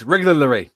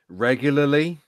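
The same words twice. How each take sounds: First: The word is rushed and comes out garbled. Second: The word is said slowly and carefully. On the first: The speaker calls it wrong. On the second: The speaker calls it right.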